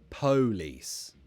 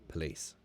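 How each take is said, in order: First: The stress is on the first syllable. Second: The stress is on the second syllable. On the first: The speaker calls it wrong. "Were it the other way round, that one would not be a schwa" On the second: The speaker calls it right. "But this is the weak syllable"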